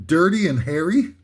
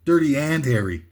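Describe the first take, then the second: First: "Dirty and Harry" with a questioning rise on Harry; misplaced emphasis. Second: "Dirty AND Harry", leaning on AND, falling at the end; corrected emphasis. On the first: Comic misreading a parody title, "Harry" rising like a question. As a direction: read "Dirty and Harry" tentatively, Harry lifting at the end. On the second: Comic correcting his title's emphasis, stressing AND, voice falling. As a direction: hit AND in "Dirty and Harry", finish lower. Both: Shown as a demonstration. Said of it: "put the emphasis on the right syllable".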